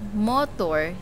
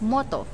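First: The final R sound is pronounced. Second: The final R sound is silent. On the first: "So if they will say motor" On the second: "they will going to say it as motto"

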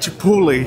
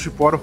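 First: The word is said with a t-l, ending 'tle'. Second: The word is said with an r, ending 'ro'. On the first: The speaker calls it right. "É chipotle" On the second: The speaker calls it wrong. "eu descobri que não fala chiporo"

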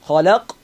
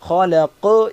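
First: The final q stops plainly without a bounce. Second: The final q is pressed with an echoing bounce. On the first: The speaker calls it wrong. "ഖലഖ് എന്ന് മാത്രം പറഞ്ഞിട്ടില്ല" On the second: The speaker calls it right. "അമർത്തിയിട്ട് തന്നെയാണ് ഉച്ചരിച്ചത്"

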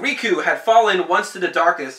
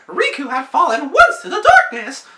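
First: It is read in his normal voice. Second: It is read in a Mickey Mouse voice.

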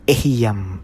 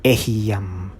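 First: The word is said in three syllables. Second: The same.

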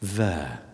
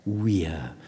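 First: The word begins with a V sound. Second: The word begins with a W sound.

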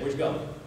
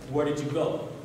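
First: The words run together in a relaxed way. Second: Each word is pronounced fully and separately. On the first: The speaker calls it right. "He said" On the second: The speaker calls it wrong. "No one says"

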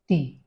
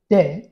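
First: The syllable is said with a short 'dih' vowel. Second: The syllable is said with an open 'deh' vowel. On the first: The speaker calls it right. "it is T" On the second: The speaker calls it wrong. "It is not de"

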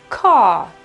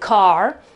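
First: The R is silent with a long A. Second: The final R is pronounced at the back. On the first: "secondo l'inglese britannico... la R scompare e c'è soltanto una A prolungata" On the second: "l'ho pronunciata proprio in fondo, quindi sul lato posteriore"

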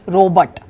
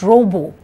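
First: The word ends with a t sound. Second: The word ends without a t sound. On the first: The speaker calls it wrong. "not robot" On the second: The speaker calls it right. "it is pronounced as robo"

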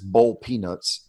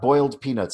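First: Boiled is said in a Southern drawl, like burled. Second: Boiled is said in a plain standard way. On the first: The speaker calls it right. "You got to say it right" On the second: The speaker calls it wrong. "It's not boiled peanuts"

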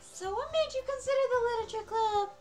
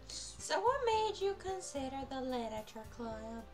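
First: It is said loudly. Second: It is said very quietly.

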